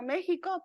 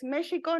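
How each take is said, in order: First: It is said with its usual Spanish sounds. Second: It is said with its original Nahuatl sounds. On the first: The speaker calls it wrong. "no México" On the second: The speaker calls it right. "La pronunciación real es México"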